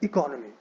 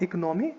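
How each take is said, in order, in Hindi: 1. Stress syllable 'con' पर है। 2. Stress syllable 'nom' पर है। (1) "but economy" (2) "Not economy"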